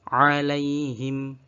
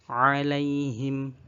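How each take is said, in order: The two takes are said the same way.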